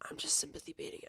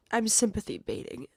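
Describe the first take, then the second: First: Whispered to herself, much softer. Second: Said in the usual way. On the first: Real, not acted. She whispers the line to herself after the argument. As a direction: breathe it out with no voice. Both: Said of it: "repeats same words voiced then whispered".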